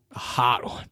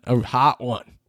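First: A whispered, longing repeat; whispered craving. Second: Said in the usual way. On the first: Real, not acted. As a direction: breathe the words like a secret craving.

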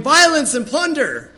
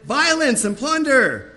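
First: Very high, loud cry of alarm; frantic shout. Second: High, slow shouted warning; prophet's shout. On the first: Preacher acting Jeremiah running about the streets, shouting high and loud. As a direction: run around yelling the warning. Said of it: "Jeremiah's running around going". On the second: Preacher voicing Jeremiah shouting his warning, loud and slow. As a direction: cry it out like a prophet of doom. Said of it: "I shouted". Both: Retold or imitated.

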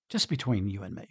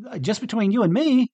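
First: Softer, lower, just between two friends; confiding aside. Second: Higher and louder, pressing the point; emphatic confession. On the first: Peter confiding to Jesus, softer and lower. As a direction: lean in and say it privately. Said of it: "Peter was kinda going to Jesus and say". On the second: Pastor speaking to Jesus himself, higher and louder. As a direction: say it out loud, no hiding. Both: Retold or imitated.

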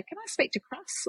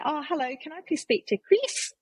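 First: "Cross" with the New Zealand clipped i, high and soft; New Zealand pronunciation. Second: High, polite phone voice saying "Chris" with a short i; sweet caller asking "Chris?" with the short i vowel. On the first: New Zealand rep asking for a customer, "Cross" in her home accent. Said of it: "you'd say Cross". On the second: Wine rep phoning a customer, saying "Chris" the Australian way. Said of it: "I would call and say". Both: Retold or imitated.

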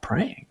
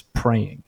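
First: PRAYING echoed high and soft, rising; surprised question. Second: PRAYING as a plain answer, falling pitch; quiet statement. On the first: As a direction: echo PRAYING back as a puzzled question. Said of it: "I didn't see that coming". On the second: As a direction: say PRAYING as a simple, settled statement. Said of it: "she looks at me and she says". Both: Retold or imitated.

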